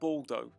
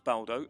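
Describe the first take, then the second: First: The first syllable sounds like the word 'bald'. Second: The first syllable does not sound like 'bald'. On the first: The speaker calls it wrong. "sounds like an offensive term for someone with hair loss" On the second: The speaker calls it right. "I assume it's pronounced Baldo"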